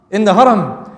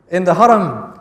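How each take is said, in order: Both takes have the same delivery.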